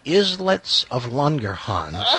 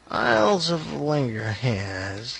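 First: The first word is said like 'islets'. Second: The first word is said like 'isles'. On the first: The speaker calls it right. "It's the Islets of Langerhans" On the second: The speaker calls it wrong. "hadn't even pronounced it correctly"

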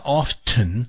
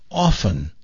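First: The T sound is pronounced in the middle. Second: The T sound is silent in the middle. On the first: The speaker calls it wrong. "not often" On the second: The speaker calls it right. "You don't say the T"

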